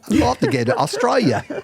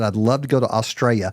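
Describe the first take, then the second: First: It is said in an Australian accent. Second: It is said in the speaker's ordinary accent.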